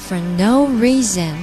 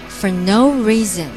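Both takes have the same delivery.

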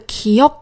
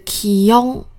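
First: The word ends with a clear k sound. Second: The word ends with a nasal ng sound. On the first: "这个기억" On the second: "听起来像是기억的感觉"

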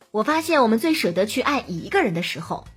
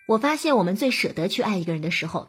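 First: The stress falls on 一个. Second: No word is given special stress. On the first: "而如果你去强调数字，强调只爱一个人" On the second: "我特意的没有表达出它的重点"

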